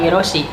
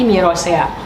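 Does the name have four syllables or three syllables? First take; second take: three; four. First: The name ends with a single 'see' sound. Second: The name ends with 'se-a', two separate vowels. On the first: The speaker calls it wrong. "Dibacanya itu bukan Mirosi" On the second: The speaker calls it right. "tapi Mirosea"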